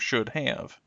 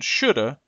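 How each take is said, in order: First: Every sound of both words is said in full. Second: The words are blended into one short reduced form. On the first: "their original forms" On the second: "Extreme reductions"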